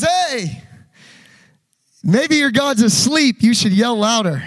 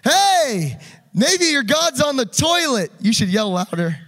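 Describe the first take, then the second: First: Loud mocking taunt, slowed on asleep; big sarcastic yell across the crowd; taunting Elijah. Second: Even louder taunt, higher pitch; mocking heckle, louder still; trolling Elijah. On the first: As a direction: jeer at them like a troll, loud and slow. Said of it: "And Elijah says". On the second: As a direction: push the jeer further, slow and mocking.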